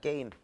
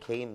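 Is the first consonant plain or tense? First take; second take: tense; plain. First: The first consonant is tense. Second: The first consonant is plain. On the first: This is how people commonly pronounce it. "게임이라고 발음이 되는데" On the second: This is how it is written in standard spelling. "한글로는 게임 이런다고"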